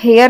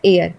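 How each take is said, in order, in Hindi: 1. यह शब्द h ध्वनि से शुरू होता है। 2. यह शब्द स्वर से शुरू होता है, इसमें h नहीं है। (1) "इसे हम हेयर नहीं बोलते" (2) "इससे हम बोलते हैं एयर"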